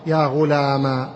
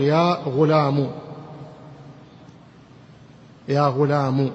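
First: Slow "غلام" ending in long aa; alif ending. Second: "غلام" ending in u; damma ending. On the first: Teacher showing alif form, "غلام" said ghulamaa. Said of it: "ألف". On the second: Teacher showing weakest form, "غلام" said ghulamu. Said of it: "ضمة". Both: Shown as a demonstration.

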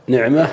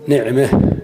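First: Said in the usual way. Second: نعمة ending tilted toward e, neʕmeh; imala. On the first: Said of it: "يجوز فيها الفتح الخالص". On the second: Shown as a demonstration. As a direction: end نعمة with the a bent toward e. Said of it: "ويجوز فيها الإمالة فتقول".

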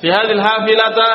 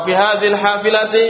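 First: "hafilata" ending on a clear -ta; careful case ending. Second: "hafilati" ending on a clear -ti; careful case ending. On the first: Teacher offering the class two options, "hafilata" ending in ta. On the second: Teacher offering the class two options, "hafilati" ending in ti. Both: Shown as a demonstration. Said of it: "Man yuwafiq?".

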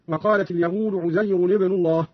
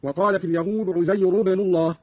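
First: Said in the usual way. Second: عزير ابن joined as "Uzayru-bnu", no n sound; u without nunation. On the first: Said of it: "قرأ قالون بضم الراء غير منونة". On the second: Shown as a demonstration. Teacher shows Qalun's reading, عزير ending "-ru" without tanwin. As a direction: end عزير on a short u straight into ابن. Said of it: "بضم الراء غير منونة".

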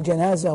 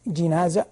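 First: جنازة with a short "a" after the jim, "janaza"; fatha on jim. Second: جنازة with a short "i" after the jim, "jinaza"; kasra on jim. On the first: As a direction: open the first vowel of جنازة to "a". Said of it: "ويجوز بالفتح". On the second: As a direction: narrow the first vowel of جنازة to "i". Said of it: "جنازة بالكسر أفصح". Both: Shown as a demonstration.

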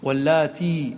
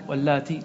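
First: واللاتي ending in a long-held ee; final ya kept. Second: واللاتي ending in a short i; final ya dropped. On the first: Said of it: "تثبت". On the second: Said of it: "تحذف الياء". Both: Shown as a demonstration.

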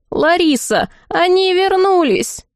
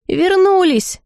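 First: High, drawn-out call to someone. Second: High-pitched butler's cry of news; yelling. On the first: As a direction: call the news through the house, high and slow. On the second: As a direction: call it out high, stretching the word. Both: A narrator's reading. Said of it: "во всё горло завопил дворецкий".

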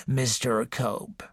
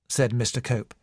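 First: Put-on slow, much softer wheezy old voice; old woman wheezing a visitor's name; wheezing old lady. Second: Said in the usual way. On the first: A narrator's reading. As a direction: breathe the name out like an ailing matriarch. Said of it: "wheezed the old lady". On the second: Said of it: "narration beside figure".

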